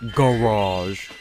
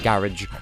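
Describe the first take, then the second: First: The word has an American pronunciation. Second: The word has a British pronunciation.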